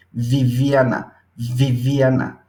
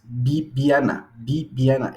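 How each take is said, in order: First: La v de Viviana con dientes y labio; labiodental v. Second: Viviana with both lips closed, bibjana; bilabial b. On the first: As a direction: bite the lip for the v in Viviana. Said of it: "los dientes ... superiores con el labio inferior". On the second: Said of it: "Esta es labial". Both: Shown as a demonstration.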